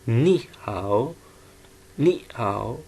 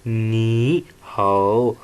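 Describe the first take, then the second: First: नी हाओ with नी rising and हाओ dipping, slow; tone sandhi. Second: नी हाओ with two full third tones, very slow and loud; नी हाओ dragged out, both syllables falling then rising; tones as written. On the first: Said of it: "उससे second tone बना दिया जाएगा". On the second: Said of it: "ये इस तरह pronounce किया जाता है अगर टोन्स को देखा". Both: Shown as a demonstration.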